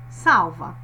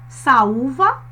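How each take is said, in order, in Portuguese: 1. O som do U é fraco e curto. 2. O som do U é forte e mantido por mais tempo. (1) "O U perde a força" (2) "nós passamos mais tempo pronunciando o U"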